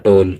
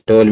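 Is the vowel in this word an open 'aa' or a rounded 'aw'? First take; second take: aw; aw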